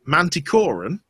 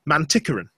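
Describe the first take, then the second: First: The word uses the author's intended pronunciation. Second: The word uses the narrator's mispronunciation. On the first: The speaker calls it right. "instead of being Manticoran for the entire book" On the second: The speaker calls it wrong. "she's Manticoran, ... one word is mispronounced the whole book through"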